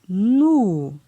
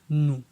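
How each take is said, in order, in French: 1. La syllabe a un ton descendant. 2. La syllabe a un ton bas. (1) "la syllabe avec un ton descendant" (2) "Ton bas"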